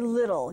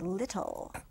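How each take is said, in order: First: The word is said loosely, with careless diction. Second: The word is said crisply, with careful diction. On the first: The speaker calls it wrong. "you don't say little" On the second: The speaker calls it right. "you say little"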